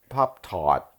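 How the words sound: It is said in a New York accent. "What would New York's be?"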